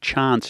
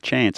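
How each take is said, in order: First: It is said with a South Australian vowel. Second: It is said with a non-South Australian vowel. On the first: This is how the other person said it. "you just said chance" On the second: This is the usual local way. "instead of chance"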